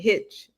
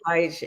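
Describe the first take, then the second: First: The vowel is short, like in 'hit'. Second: The vowel is long, like in 'height'. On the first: The speaker calls it wrong. "you went Hitch" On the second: The speaker calls it right. "it's Daryl Heitch"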